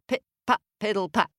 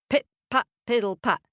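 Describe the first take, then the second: No difference in how they are said.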